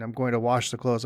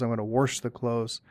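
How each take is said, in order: First: Said in the usual way. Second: WASH said as warsh; intrusive R. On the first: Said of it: "instead of w-, announcing". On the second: Shown as a demonstration. Showing a regional habit, wash said as warsh. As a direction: add an R before the SH in wash. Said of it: "stick in that R".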